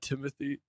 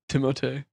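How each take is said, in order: First: The name is said the English way, ending 'thee'. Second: The name is said the French way, ending 'tay'. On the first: The speaker calls it wrong. "his name's not Timothy" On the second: The speaker calls it right. "It's Timote"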